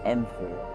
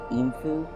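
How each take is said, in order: First: The first vowel of the name is short. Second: The first vowel of the name is long. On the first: "more of a short E" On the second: "with the double E"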